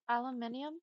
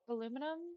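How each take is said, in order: First: The word is said the non-American way. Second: The word is said the American way. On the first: "What does everyone else call it?" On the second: "only the U S says al aluminum?"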